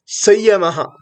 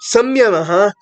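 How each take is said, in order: First: No full m sound comes before the y. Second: A full m sound comes before the y. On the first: Vedic scholars say it this way. The speaker calls it right. "it is correct to pronounce as Sayamaha" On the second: Some people say it this way. The speaker calls it wrong. "Some people pronounce as Samyamaha"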